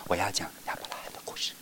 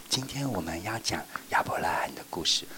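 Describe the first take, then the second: First: Fast soft whisper; teacher whispering the story opening. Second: Soft whisper; teacher whispering to children. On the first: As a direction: hush them by whispering. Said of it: "然后我就说". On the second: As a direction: open the story in a whisper. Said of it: "我一定说". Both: Shown as a demonstration.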